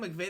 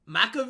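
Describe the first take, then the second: First: The name is pronounced the usual way. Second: The name is pronounced in an odd way.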